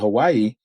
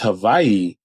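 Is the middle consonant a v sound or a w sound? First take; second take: w sound; v sound. First: The middle consonant is a w sound. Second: The middle consonant is a v sound. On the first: This is how most people say it. The speaker calls it wrong. "just people say Hawaii" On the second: This is the local, proper form. The speaker calls it right. "but it's Hawaii"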